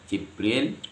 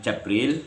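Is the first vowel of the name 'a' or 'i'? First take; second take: i; a. First: The first syllable has the vowel 'i'. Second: The first syllable has the vowel 'a'. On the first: "kasroh jim" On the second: "di fathah jimnya"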